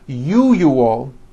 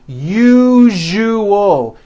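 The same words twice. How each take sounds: First: The middle consonant is not a voiced zh. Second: The middle consonant is a voiced zh. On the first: The speaker calls it wrong. "If you are someone that pronounces the word usual as usual, I'm telling you, you are not being understood" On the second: The speaker calls it right. "That second syllable, ju ... needs to be voiced"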